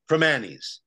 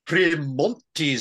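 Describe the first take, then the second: First: The name is said without a T sound. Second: The name is said with a T sound. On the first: The speaker calls it right. "It's pronounced Premanis" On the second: The speaker calls it wrong. "This Premontis stuff makes it sound like a classy establishment"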